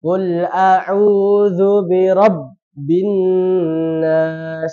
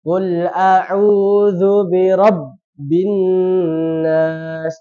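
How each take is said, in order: First: The doubled consonants are held long. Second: The doubled consonants are held long.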